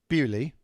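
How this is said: The name is said the English way. "That's the English pronunciation"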